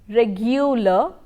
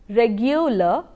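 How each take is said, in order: The two takes are said the same way.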